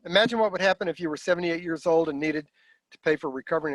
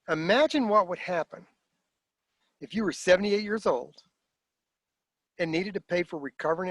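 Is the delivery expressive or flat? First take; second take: flat; expressive. First: It is said flatly, without inflection or emphasis. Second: It is said expressively, with inflection and emphasis. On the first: The speaker calls it wrong. "I didn't use voice inflection. I didn't put emotion into it. I didn't emphasize any words" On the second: The speaker calls it right. "what if I said it this way?"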